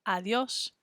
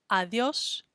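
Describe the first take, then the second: Both takes have the same delivery.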